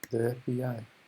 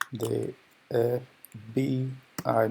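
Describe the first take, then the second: First: The B is slurred with loose lips. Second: The B is crisp with the lips closed. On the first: The speaker calls it wrong. "lo estaba pronunciando mal" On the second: The speaker calls it right. "lo pronuncié muy claramente"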